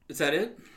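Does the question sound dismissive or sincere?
sincere. It is asked as a plain, sincere question. The speaker is checking whether the other has finished. The speaker calls it right. "I just don't want to interrupt you"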